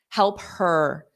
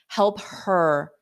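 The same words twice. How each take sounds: First: The h sound of 'her' is clearly pronounced. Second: The h sound of 'her' is clearly pronounced.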